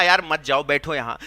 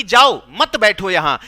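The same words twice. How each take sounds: First: Low मत जाओ as one phrase, then बैठो यहां; group मत with जाओ, dropping lower on बैठो यहां; pause after जाओ. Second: Slow, loud जाओ, then मत joined to बैठो; stress on मत बैठो. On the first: Teacher repeats what was really said, pausing after जाओ. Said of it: "एक ही बात उसने कहा". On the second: Teacher shows what was misheard, stressing मत बैठो. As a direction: split off जाओ and hit मत बैठो as one order. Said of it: "उसने सुना कि". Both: Shown as a demonstration.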